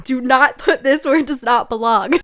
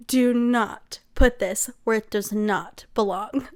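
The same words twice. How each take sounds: First: Louder, exasperated mock scolding; emphatic mock warning. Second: Slow, deliberate word by word; stern mock warning. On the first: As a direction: punch out the warning loudly. Repeats trend warning about the scene. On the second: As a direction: spell out the warning slowly and firmly. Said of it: "you're like".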